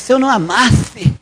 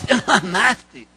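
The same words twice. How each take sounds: First: It is said in a neutral voice. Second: It is said in a hurt, resentful voice.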